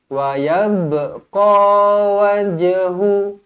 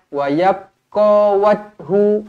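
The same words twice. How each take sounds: First: The b and j sounds are released with a bounce. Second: The b and j sounds are closed without a bounce. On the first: The speaker calls it right. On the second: The speaker calls it wrong.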